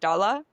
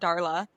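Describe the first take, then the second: First: It is said in a German accent, no hard R. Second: It is said with a hard American R.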